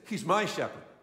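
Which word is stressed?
my. The word my is stressed.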